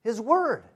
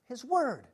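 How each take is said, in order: First: Said in the usual way. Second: His Word repeated much softer, almost to himself; soft echo. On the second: Shown as a demonstration. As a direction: let His Word fall to a hush. Repeats phrase, second time hushed.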